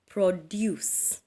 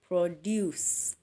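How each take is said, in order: First: The stress is on the second syllable. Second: The same.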